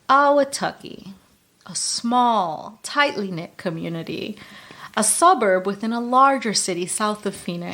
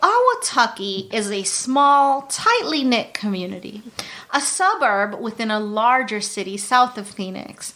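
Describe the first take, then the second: First: It is said in a raspy, low Dateline voice. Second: It is said in a normal voice.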